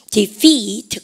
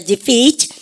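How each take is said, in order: First: Said in the usual way. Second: DEFEAT with the vowel drawn out, louder and rising; long vowel. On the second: Shown as a demonstration. Teacher leading the class in pronunciation, long rising "defeat". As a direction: stretch the "ee" in defeat, lifting it at the end. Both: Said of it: "발음 길게 하시고".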